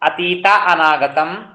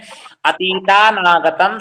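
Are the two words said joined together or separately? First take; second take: separate; joined. First: The two words are said separately, not blended. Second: The two words are blended into one word. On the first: The compound is broken into its parts for learning. "मैं इसको संधि विच्छेद करके पढ़ाता हूँ।" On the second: This is how it is properly read in Sanskrit. "तो उसको इस प्रकार से पढ़िएगा संस्कृत में।"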